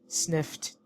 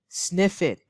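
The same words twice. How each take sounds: First: The ending is pronounced as a t sound. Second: The ending is not pronounced as a t sound. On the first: The speaker calls it right. "T sound" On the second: The speaker calls it wrong. "It's not correct"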